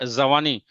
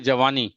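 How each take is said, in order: First: The word begins with a z sound. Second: The word begins with a j sound. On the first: The speaker calls it wrong. "We don't say जवानी" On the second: The speaker calls it right. "We से जवानी"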